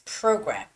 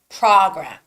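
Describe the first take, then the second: First: The vowel is made with rounded, moving lips. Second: The vowel is made with a wide-open jaw. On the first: The speaker calls it right. "you have to open, move your lips" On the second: The speaker calls it wrong. "This is wrong"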